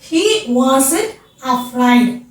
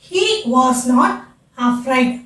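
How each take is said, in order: First: Was and not merge into one contracted word. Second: Was and not are said as separate words.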